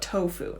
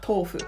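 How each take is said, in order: First: The word is pronounced the English way. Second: The word is pronounced the Japanese way. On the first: "Because I'm speaking English, I call it tofu" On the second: "not tofu, right? Because that's speaking Japanese"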